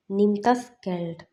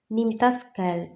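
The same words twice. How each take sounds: First: Very slow, every word spaced out; slow it right down for learners; slow teaching demo. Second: Said in the usual way. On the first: Shown as a demonstration. (വളരെ പതുക്കെ പറയുക) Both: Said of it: "അതായത്".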